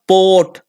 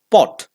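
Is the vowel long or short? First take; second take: long; short. First: The vowel is drawn out long. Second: The vowel is clipped short. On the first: The speaker calls it wrong. "It is not pot" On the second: The speaker calls it right. "It is short"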